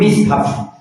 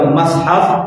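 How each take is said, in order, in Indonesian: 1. Vokal pertama adalah i. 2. Vokal pertama adalah a. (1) "boleh kedua" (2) "baca dengan fathah mushafi itu adalah gharib"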